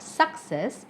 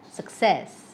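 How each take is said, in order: First: SUC-cess, stressed on the first syllable; wrong stress on first syllable. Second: Suc-CESS, stressed on the second syllable. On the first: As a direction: say success wrongly, punching "suc". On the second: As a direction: say success with a weak "suc", strong "cess". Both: Shown as a demonstration. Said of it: "may have stress on the second".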